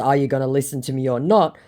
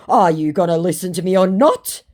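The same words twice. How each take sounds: First: Said in the usual way. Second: Loud, raised mock demand; mock impatient demand. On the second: Scammer demands to be heard, mock impatient.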